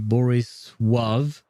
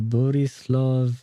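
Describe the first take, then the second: First: The name is said with a W sound. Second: The name is said with a clear L sound. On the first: This is the Polish pronunciation. "their borrowed L is pronounced like a W" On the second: This is the Serbian pronunciation. "is how I would say it in Serbian"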